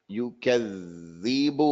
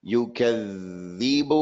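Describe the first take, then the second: The two takes are said the same way.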